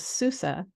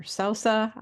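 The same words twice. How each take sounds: First: Sousa said as SOO-suh; first pronunciation. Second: Sousa said as SOH-suh; alternative pronunciation. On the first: Introducing her friend by surname, Sousa pronounced SOO-suh. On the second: Unsure of her friend's surname, Sousa pronounced SOH-suh. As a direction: say Sousa with a more open first vowel. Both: Real, not acted. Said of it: "Hopefully I'm pronouncing it".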